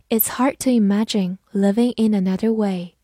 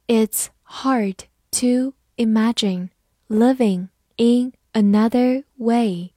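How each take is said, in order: First: Said in the usual way. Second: Slow, word by word; slow, deliberate teaching pace; slow read-through. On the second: Shown as a demonstration. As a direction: read it slowly with pauses between words. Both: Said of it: "慢读一遍".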